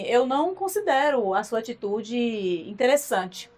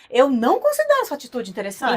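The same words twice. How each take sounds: First: It is said in a calm tone. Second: It is said in an angry tone.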